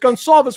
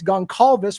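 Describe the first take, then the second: First: The middle consonant is a soft S sound. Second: The middle consonant is a hard K sound. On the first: "with an S" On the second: "with a hard C"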